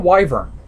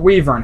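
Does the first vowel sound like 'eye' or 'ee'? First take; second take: eye; ee. First: The first vowel sounds like 'eye'. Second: The first vowel sounds like 'ee'. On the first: "I pronounce it wyvern because it sounds right" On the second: "however you want to pronounce it"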